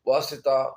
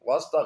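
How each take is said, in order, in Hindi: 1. s और t के बीच i स्वर है। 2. s और t के बीच कोई स्वर नहीं है। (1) "ये लफ्ज असल में वासिता है" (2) "वास्ता गलत है"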